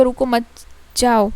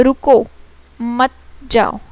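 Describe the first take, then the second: First: रुको मत run together, pause, then जाओ; pause after मत. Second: Loud रुको, clear pause, then मत जाओ; pause after रुको. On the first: Teacher showing the comma moved, pause after मत. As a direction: break between मत and जाओ. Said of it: "एक कॉमा में". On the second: Teacher demonstrating the comma to students, pause after रुको. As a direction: stop after रुको, keep मत जाओ together. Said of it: "हमारे comma में ही रुक". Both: Shown as a demonstration.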